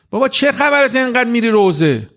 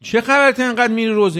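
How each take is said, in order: First: Lightly voiced scoffing friend, pitched up; a hint of a teasing buddy; mocking friend. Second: Lightly voiced scoffing friend, pitched up; a touch of teasing disbelief; mocking friend. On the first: University friends teasing the young man about mourning gatherings, mock scoff. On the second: Friend repeating the jab at the young man, mock scoff. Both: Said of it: "به جوونه میگه که رفیقاشو".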